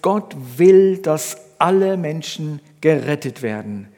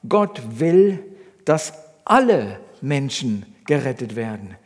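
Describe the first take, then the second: First: The sentence is read with no special emphasis. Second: The word 'alle' is strongly emphasized.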